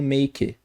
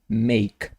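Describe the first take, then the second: First: An extra vowel sound follows the final k. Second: The word ends on the k, no vowel after. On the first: The speaker calls it wrong. "Vejo muita gente falando make" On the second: The speaker calls it right. "corta esse E aqui do final e é make"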